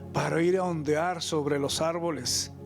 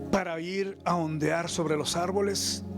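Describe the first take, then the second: The two takes are said the same way.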